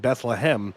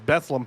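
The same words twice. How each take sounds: First: The name is said in full, every syllable. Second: The name is said in a shortened local form. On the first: This is the full name used at Christmas time. "we actually say the full town's name" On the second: This is how eastern Pennsylvania locals say it. "the way that I pronounce that is Bethlehem"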